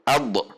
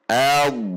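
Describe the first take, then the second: First: The final consonant is cut off with a bounce. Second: The final consonant flows on smoothly without bouncing. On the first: The speaker calls it wrong. "tidak dibaca ad" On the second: The speaker calls it right. "tetapi al, mengalir"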